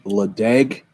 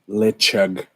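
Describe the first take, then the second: First: The middle consonant is a plain d sound. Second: The middle consonant is a throaty ch sound. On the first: This is how the spelling looks. "Sounds like Ledeg" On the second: This is how it is actually pronounced. "pronounces like Lechug"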